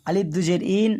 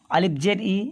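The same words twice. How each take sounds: First: Alif দুজের ইন ending on ইন with a clear n; double kasra reading. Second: আলিফ জের ই ending on a short clean ই with no n; single kasra, ই only; single kasra reading. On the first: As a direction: add the n: ইন, not ই. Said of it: "এইভাবে পড়বেন". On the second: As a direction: read ই short, with no nasal n after it. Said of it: "একটা জের মানে উচ্চারণ সবসময় হবে ই". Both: Shown as a demonstration.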